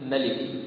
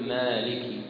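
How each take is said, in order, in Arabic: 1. الحركة الأولى تُقصَر. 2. الحركة الأولى تُمَدّ حركتين. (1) "بقصر الألف يعني أو حذفها" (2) "تقول مالكي"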